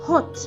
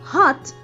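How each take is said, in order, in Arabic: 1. الصوت يُنطق كحرف o مدوّر. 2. الصوت يُنطق كـ ah مفتوحة. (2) "American English"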